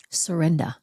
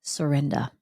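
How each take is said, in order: First: Whispered. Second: Said in the usual way. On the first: Shown as a demonstration. Speaker repeating her theme word in a hushed whisper. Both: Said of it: "what really had to take place underneath it".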